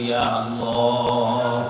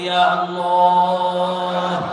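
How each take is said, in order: First: It is said softly and lovingly. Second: It is said more loudly.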